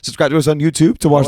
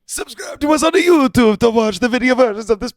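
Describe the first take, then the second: First: It is said in his normal accent. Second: It is said in a put-on Italian accent.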